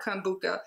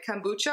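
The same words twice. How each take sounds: First: Kombucha said "kom-BOO-kuh"; hard K instead of CH in kombucha. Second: Kombucha said "kom-BOO-chuh"; CH as in "chop" in Kombucha; ch-sound Kombucha. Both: Real, not acted. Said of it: "I was saying it wrong".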